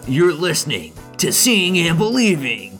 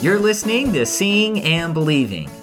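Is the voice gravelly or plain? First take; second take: gravelly; plain. First: It is said in a deep, gravelly announcer voice. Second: It is said in a plain, normal speaking voice. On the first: "It sounds like Hulk Hogan" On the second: "you did not use the gravelly announcer voice from Mortal Kombat"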